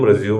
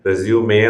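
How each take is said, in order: First: The word ends on the m sound. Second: The word ends in an open vowel after m. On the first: It means to continue after stopping. The speaker calls it wrong. "റെസ്യൂം എന്ന് ഉച്ചരിക്കുന്ന ആൾക്കാരുണ്ട്, അതല്ല" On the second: It names a summary of qualifications. The speaker calls it right. "റെസ്യൂമെ എന്നാണ് അത് ഉച്ചരിക്കുന്നത്"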